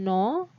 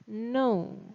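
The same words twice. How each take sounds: First: The vowel is a single pure o sound. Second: The vowel glides, with an added vowel sound. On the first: The speaker calls it wrong. "jangan bilang no" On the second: The speaker calls it right. "tapi dia seperti ada e gitu"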